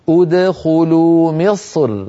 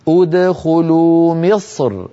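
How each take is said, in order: The two takes are said the same way.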